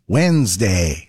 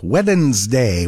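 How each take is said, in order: First: WEDNESDAY said as wenz-day, silent D; usual pronunciation. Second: WEDNESDAY said as wed-ens-day, sounding the D; spelled-out pronunciation. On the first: Host shows how we pronounce it, WEDNESDAY as wenz-day. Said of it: "which of course we pronounce". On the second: Host mocks English spelling, WEDNESDAY sounded out with its D. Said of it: "which of course we pronounce Wednesday". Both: Shown as a demonstration.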